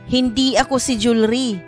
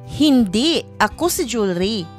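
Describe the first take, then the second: First: There is a pause only at the very end. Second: There is a pause right after the first word. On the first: "Pagbigkas ito na nasa hulihan ang hinto" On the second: "Pagbigkas ito na ang hinto ay pagkatapos ng hindi"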